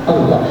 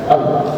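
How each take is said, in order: No difference in how they are said.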